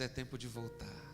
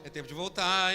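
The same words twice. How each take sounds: First: It is said in a gentle, smiling tone. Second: It is said in a harsh, accusing tone. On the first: The listener is being lovingly invited. The speaker calls it right. "O nosso Jesus sorri para nós e diz" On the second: The listener is being blamed. The speaker calls it wrong. "Não fala assim, ó"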